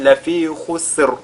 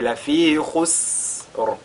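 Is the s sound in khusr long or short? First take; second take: short; long. First: The s sound is cut short. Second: The s sound is lengthened. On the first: The speaker calls it wrong. "là ce ne sera pas correct" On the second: The speaker calls it right. "d'allonger la prononciation"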